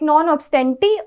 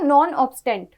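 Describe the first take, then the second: First: The last word ends with an added 'ee' vowel. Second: The last word ends on the 't' consonant. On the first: "कई लोग नॉन ऑब्स्टेंटी भी प्रोनाउंस करते हैं" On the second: "कई लोग इसे नॉन ऑब्स्टेंट भी प्रोनाउंस करते हैं"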